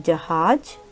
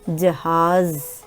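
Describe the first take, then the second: First: The final consonant is a j sound. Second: The final consonant is a z sound. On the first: "Normal you say j" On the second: "The last one is z sound"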